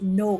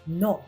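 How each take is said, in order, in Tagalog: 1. Binibigkas ito na parang Ingles, may dumudulas na patinig. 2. Binibigkas ito nang matatag, na may maikli at purong patinig. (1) "hindi no katulad ng Ingles" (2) "mas matigas"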